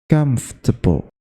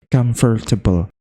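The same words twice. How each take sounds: First: The word is said with three syllables. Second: The word is said with four syllables. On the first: The speaker calls it right. "sebenarnya itu cuma tiga" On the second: The speaker calls it wrong. "meskipun salah itu terlihat terdengar Inggris banget"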